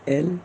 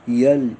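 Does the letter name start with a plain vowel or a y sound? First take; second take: plain vowel; y sound. First: It starts directly with a plain e vowel. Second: It starts with a y glide before the vowel. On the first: The speaker calls it right. "असे स्पष्ट उच्चार आले पाहिजेत" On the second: The speaker calls it wrong. "असे करायचे नाहीत"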